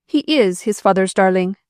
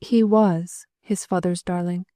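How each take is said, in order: First: "is" pressed hard and louder; defiant stress on is. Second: Slow, careful hint that he is dead; slow, gentle. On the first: Mother refusing Margaret's hint, stressing "is". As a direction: insist on "is", louder. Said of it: "said the woman". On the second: Margaret breaking the news to the widow, slowly. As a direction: weigh each word slowly. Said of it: "said Margaret slowly". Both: A narrator's reading.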